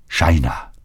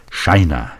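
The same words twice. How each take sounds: First: Broken plea. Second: Said in the usual way. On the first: Acted. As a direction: breathe her name like a lightly voiced plea. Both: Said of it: "flehte er gebrochen".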